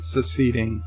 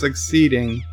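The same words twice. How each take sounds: First: It is said to sound like 'seceding'. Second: It is said with the usual 'succeed' sounds. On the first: The speaker calls it wrong. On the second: The speaker calls it right.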